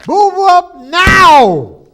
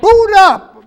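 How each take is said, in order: First: High, loud and very slow command; a final, drawn-out order to the computer; slow drawn-out yell. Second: High, loud command at the machine; angry yell. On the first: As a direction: stretch each word out in fury. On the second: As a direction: bark it at the frozen screen. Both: Acted. Yelling at stuck computer.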